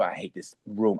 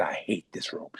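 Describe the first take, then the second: First: Muttered. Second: Quieter, lower, barely said under breath; grumbled under the breath, hoping nobody hears; muttered under breath. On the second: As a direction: mutter it to yourself, almost swallowed. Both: Retold or imitated. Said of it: "I said".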